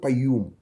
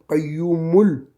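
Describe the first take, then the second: First: The word ends on a bare m sound. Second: An 'u' vowel follows the m sound. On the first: The reader stops at this word. "si on s'arrête, on ne va pas dire le son" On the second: The reader continues into the next word. "Si on continue, on entendra le ou"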